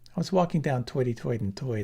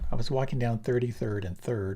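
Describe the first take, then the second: First: It is spoken in a Brooklyn New York accent. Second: It is spoken in a Standard American accent. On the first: "I had to throw in the Bronx, Brooklyn" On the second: "Standard American"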